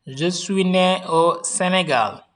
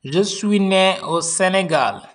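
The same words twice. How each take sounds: The two takes are said the same way.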